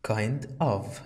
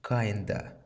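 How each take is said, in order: First: The word of is said in full. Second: The word of is reduced to a vowel.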